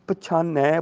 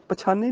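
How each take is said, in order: First: ਪਛਾਨੈ with an open final ਐ vowel; ਪਛਾਨੈ with a clear ਐ ending; correct pronunciation. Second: Said in the usual way. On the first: Shown as a demonstration. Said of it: "ਪਛਾਨੈ ਬੋਲਣਾ ਹੈ". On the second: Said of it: "ਪਛਾਨੇ ਨਹੀਂ ਬੋਲਣਾ".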